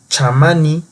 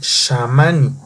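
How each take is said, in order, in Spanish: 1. La palabra empieza con sonido ch. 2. La palabra empieza con sonido sh. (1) "en uno dice chamani" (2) "debe de ser shamani"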